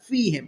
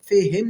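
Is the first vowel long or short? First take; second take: long; short. First: The first vowel is drawn out long. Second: The first vowel is short. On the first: The speaker calls it right. "खींच के पढ़ेंगे" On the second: The speaker calls it wrong. "फिहिम नहीं पढ़ना"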